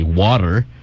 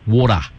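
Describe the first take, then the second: First: It is said in an American accent. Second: It is said in an Australian accent. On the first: "in an American, you would say water" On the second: "an Aussie would say water"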